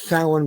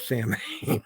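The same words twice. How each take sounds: First: The word is said with its Irish pronunciation. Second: The word is read out following its spelling. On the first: The speaker knows the tradition. The speaker calls it right. "it's pronounced Samhain because the Irish spelling um, hasn't been updated recently" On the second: The speaker is new to the tradition. The speaker calls it wrong. "one criterion we u- use to um, spot a newcomer is that we'll use it as Samhain"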